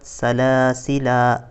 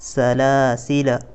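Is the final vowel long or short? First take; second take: long; short. First: The final vowel is drawn out long. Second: The final vowel is kept short. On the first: The speaker calls it wrong. "यहाँ पर भी ये अलिफ नहीं पढ़ा जाएगा। बाज़ हज़रात सलासिला इस तरह से भी पढ़ते हैं, इस तरह से बिल्कुल भी नहीं पढ़ेंगे" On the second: The speaker calls it right. "बल्कि सलासिला इस तरह से पढ़ेंगे"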